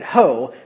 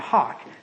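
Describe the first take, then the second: First: The word ends in a long 'oh' vowel. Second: The word ends in an 'aw' vowel and k. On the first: The speaker calls it wrong. "you might pronounce that ho" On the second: The speaker calls it right. "it's actually hawk"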